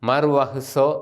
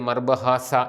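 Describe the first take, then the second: First: It has a v sound and ends in -uso. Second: It has a b sound and ends in -asa. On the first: The speaker calls it right. "മർവഹുസോ എന്നാണ് ശരിയായിട്ട് അതിൻ്റെ ഉച്ചാരണം" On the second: The speaker calls it wrong. "നമ്മൾ പലപ്പോഴും തെറ്റിച്ച് മർബഹാസ എന്നൊക്കെ പറയുന്നത്"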